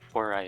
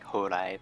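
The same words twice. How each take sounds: First: The name is said in an anglicized way. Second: The name is said in a Japanese way. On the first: The speaker calls it wrong. "technically, Horai isn't perfect pronunciation" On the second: The speaker calls it right. "since it's like a Japanese word. It's more like Horai"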